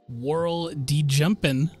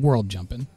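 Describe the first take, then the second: First: The name is read as separate pieces with a D. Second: The name is read as two whole words, no D. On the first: The name was read as the text display split it. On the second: The name is read as intended.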